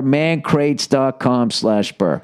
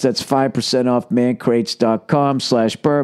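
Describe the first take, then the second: First: Drawn-out slow address; very slow URL read. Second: Slow ad read. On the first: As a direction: spell out the web address slowly. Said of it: "ad read repeated slower". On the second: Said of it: "ad read, slowed". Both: Shown as a demonstration.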